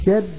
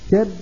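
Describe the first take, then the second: No difference in how they are said.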